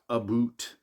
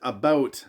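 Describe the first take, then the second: First: The second vowel sounds like 'oo'. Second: The second vowel sounds like 'ow'. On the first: This is the stereotyped Canadian way of saying it. "not aboot" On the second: This is how the speaker actually says it. "I pronounce it about"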